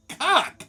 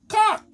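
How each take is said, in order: First: High, incredulous "Cock?"; baffled echo. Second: High, loud mimicked Spanish-accented "Cock". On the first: Retold or imitated. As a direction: echo "Cock?" back in disbelief. Baffled echo of her word. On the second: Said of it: "her English is so bad".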